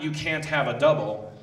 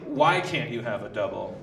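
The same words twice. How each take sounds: First: "You can't have a double" as a statement; falling statement on "You can't have a double"; flat prohibition. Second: "Why can't you have a double" as a question; softer, lower question opening on "Why"; posed question. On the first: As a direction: state "can't" as a plain rule. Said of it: "not, "You can't have a double". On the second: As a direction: lead with "Why" as if asking. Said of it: "Say, "Why can't you have a double?". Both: Shown as a demonstration.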